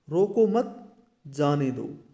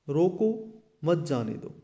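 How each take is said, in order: First: There is a pause right after 'मत'. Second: There is a pause right after 'रोको'.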